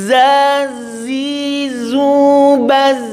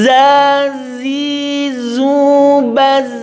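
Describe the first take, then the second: No difference in how they are said.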